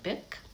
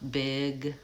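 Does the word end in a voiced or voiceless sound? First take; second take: voiceless; voiced. First: The final consonant is voiceless, a k sound. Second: The final consonant is voiced, a g sound. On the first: The speaker calls it wrong. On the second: The speaker calls it right.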